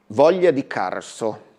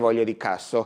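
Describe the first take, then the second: First: The r in the last word is plainly pronounced. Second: The r in the last word is weak, almost gone.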